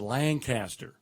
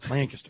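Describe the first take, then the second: First: The name is said slowly with three syllables. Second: The name is said quickly with two syllables. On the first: This is how northerners say it. "Up north, it's a Lancaster" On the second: This is how southerners say it. "put together all your letters... It's only two syllables... say it faster"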